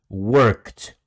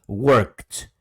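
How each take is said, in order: No difference in how they are said.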